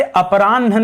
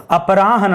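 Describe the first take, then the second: First: अपराह्न misread as a-pa-raan, ह swallowed after न; wrong अपराह्न, no clear ह before न; misspelt form. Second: अपराह्न as a-pa-raa-han, falling; careful corrected अपराह्न with audible ह; ह before न. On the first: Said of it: "अपराह्न नहीं होता है". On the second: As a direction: sound a clear ह before the final न in अपराह्न. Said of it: "अपराह्न होता है". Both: Shown as a demonstration.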